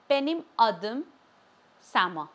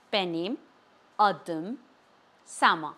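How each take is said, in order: First: Said in the usual way. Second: "Benim", pause, "adım", pause, "Sama"; each of "Benim adım Sama" as its own deliberate unit; word by word. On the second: Shown as a demonstration. Teacher modelling "Benim adım Sama" for learners, word by word.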